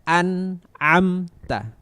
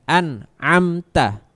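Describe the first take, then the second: Both takes have the same delivery.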